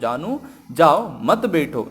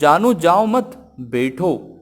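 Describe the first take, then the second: First: There is a pause after जाओ. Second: It is said together without a pause.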